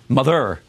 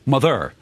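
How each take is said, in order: First: The word gets its normal everyday English stress. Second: The word gets an unnatural, forced metrical stress. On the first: The speaker calls it right. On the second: The speaker calls it wrong.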